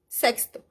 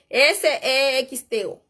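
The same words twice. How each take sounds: First: Said in the usual way. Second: S E X T O spelled letter by letter, slowly. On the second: Shown as a demonstration. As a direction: spell out S E X T O one letter at a time. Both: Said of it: "como escribir".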